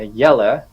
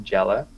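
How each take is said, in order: First: The name begins with a Y sound. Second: The name begins with a J sound. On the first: The speaker calls it right. "it's Yella" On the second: The speaker calls it wrong. "it's not Jelly or Jella"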